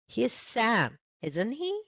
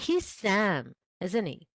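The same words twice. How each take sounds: First: The tag sounds unsure, truly asking. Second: The tag sounds certain, just confirming. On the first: The speaker doubts whether it is Sam. "is that really Sam?" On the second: The speaker already knows it is Sam. "oh, that's Sam. You know it"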